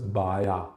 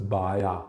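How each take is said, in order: First: The middle consonant is a Y sound. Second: The same.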